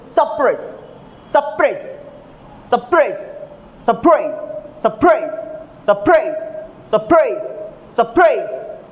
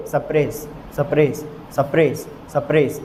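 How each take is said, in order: First: suppress with a light सप and a punched press; stress on second syllable. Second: suppress said low and even, no push on press; unstressed second syllable. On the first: Teacher drilling students on correct stress, suppress with force on press. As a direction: hit press hard in suppress, pitch jumping up then falling. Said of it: "तो कैसे बोलेंगे?". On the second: Teacher showing students how not to pronounce it, suppress with no accented syllable. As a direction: drop suppress lower, leaving press without any punch. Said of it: "तो ऐसे नहीं करोगे". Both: Shown as a demonstration.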